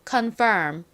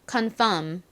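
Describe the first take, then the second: First: The second syllable has an r sound. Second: The second syllable has no r sound. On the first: "먼저 정확한 발음으로 해보고" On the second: "이제 그냥 미음 받침으로 간단히 발음해볼게요"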